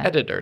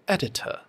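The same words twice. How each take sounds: First: The middle consonant sounds like a soft D. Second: The middle consonant is a crisp, separate T. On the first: "two D sounds" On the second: "It comes across like a little more posh"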